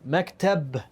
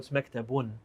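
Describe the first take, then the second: First: The word ends on the b sound. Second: The word ends with an added -un sound. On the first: The word is said in pause form. "we stopped on there" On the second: The full case ending is pronounced. "if you want to get technical"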